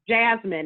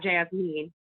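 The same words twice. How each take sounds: First: The stress is on the first syllable. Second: The stress is on the second syllable. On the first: The speaker calls it right. "because it's Jasmine" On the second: The speaker calls it wrong. "it's such an emphasis on the mean"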